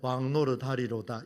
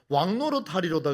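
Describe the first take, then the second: First: It is read weakly, without energy. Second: It is read forcefully, with energy.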